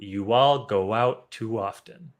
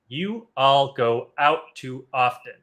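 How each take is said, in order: First: The words flow together with linking w sounds. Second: Each word is said separately without linking sounds. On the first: The speaker calls it right. "that makes that sentence sound nice and smooth" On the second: The speaker calls it wrong. "now I sound like a robot"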